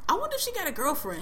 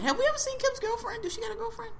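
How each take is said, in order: First: Said in the usual way. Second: Teasing. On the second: Real, not acted. Teasing question about Kim.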